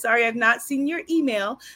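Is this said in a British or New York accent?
New York. It is said in a New York accent. "I just have a New York accent"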